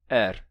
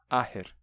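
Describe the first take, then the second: First: There is no middle consonant at all. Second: The middle consonant is a plain h sound. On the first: This is how some accents say it today. "não se pronuncia nem esse h do meio" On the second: This is today's usual pronunciation. "Esse T H ficou só com som de h"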